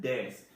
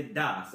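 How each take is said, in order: First: Des with a clear eh vowel; correct des. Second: Das with an open ah vowel, the wrong way. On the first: Teacher showing students the right ending, des with eh. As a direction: say des with a crisp eh, not ah. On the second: Teacher showing students the wrong ending, das with an ah. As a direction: say das with a broad ah where the e should go. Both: Shown as a demonstration. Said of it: "Now listen how I said des".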